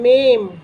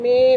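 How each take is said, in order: First: The vowel ends with a nasal sound. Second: The vowel is plain, without nasal sound. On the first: This is the grammatically proper form. "கிராமட்டிக்கலாக பேசணுன்னா அந்த மேம்" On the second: This is the casual spoken form. "மே மே பே அப்படிங்கிறதெல்லாம் பேச்சு வழக்கு"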